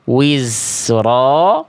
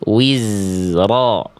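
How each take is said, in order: First: The z leaks air and sounds like s. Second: The z is buzzed with no air leaking. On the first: The speaker calls it wrong. "Jangan sampai dibaca" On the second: The speaker calls it right. "tapi wizro. Nggak ada udara yang mengalir"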